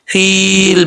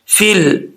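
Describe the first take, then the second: First: The vowel is held long before joining. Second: The vowel is short and joined straight on. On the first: The speaker calls it wrong. "ऐसे नहीं" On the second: The speaker calls it right. "फिल फिल okay"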